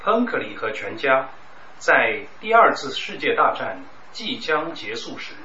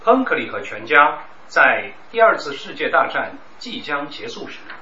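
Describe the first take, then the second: First: It is read at a normal pace. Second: It is read at a faster pace.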